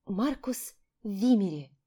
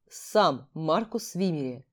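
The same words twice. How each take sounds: First: Dreamy inner repeat. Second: Slow, low, stony measured words. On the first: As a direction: savour the name slowly to yourself. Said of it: "мысленно повторила я". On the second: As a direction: carve out each word like stone. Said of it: "каменным голосом отчеканил". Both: Acted.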